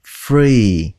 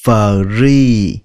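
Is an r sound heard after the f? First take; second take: yes; yes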